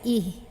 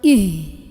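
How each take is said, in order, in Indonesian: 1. Bunyi h santai, dihembuskan dari tenggorokan. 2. Bunyi h didorong kuat dari dada. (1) "hak biasa aja" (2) "tapi jangan ih. Jangan didorong dari dada"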